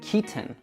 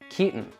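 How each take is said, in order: First: It is said with a British accent. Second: It is said with an American accent. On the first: "if a British person were to say this, they would say Keaton" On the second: "in most American English accents, we will make this sound"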